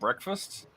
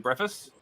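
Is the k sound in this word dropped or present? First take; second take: present; dropped. First: It is said fully with a k sound. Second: It is said fast without a k sound.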